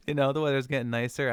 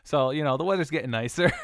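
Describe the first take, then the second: First: Giggling repeat of the good news; laughing, a bit loud. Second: Loud, high and delighted; cheerful loud exclamation; excited. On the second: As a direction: announce the good weather gleefully. Excited about the weather. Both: Real, not acted.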